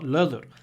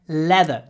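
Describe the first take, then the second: First: The first vowel is said without spread, smiling lips. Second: The first vowel is said with spread, smiling lips. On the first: The speaker calls it wrong. "not leather" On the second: The speaker calls it right. "When you pronounce it, try to smile"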